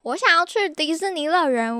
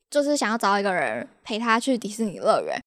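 First: Quoting him. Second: Said in the usual way. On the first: Retold or imitated. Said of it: "他一开头他就问说".

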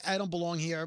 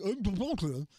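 First: Said in the usual way. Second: Garbled, mushy mumbling; garbled mumble. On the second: Retold or imitated. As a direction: run the words together into gibberish. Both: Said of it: "More like".

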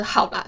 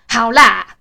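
First: Said in the usual way. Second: "好啦" barked out loud and curt; "好啦" snapped back loudly, impatient; harsh okay. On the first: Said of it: "他的意思是我平常的". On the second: Shown as a demonstration. How dad hears her reply, loud and rude. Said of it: "是说".

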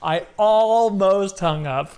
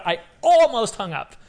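First: High, slow "almost", stretched for effect; drawn-out emphasis. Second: High-pitched, flustered exclamation; flustered excitement. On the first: Fan stressing "almost" about hanging up on the idol, drawn-out emphasis. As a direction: drag out "almost" in disbelief. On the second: Fan recalling a surprise call from the idol, flustered excitement. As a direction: blurt it high, still reeling. Retold panic at idol's call. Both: Retold or imitated.

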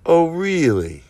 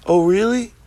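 First: Higher start, falling drawn-out ending; mock-skeptical falling tone; knowing challenge. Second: High, rising challenge; incredulous questioning tone; mock disbelief. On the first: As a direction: stretch REALLY and let it fall. Same challenge, second take. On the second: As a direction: ask it higher, tipping up into a question. Mock challenge to doubters, first take.

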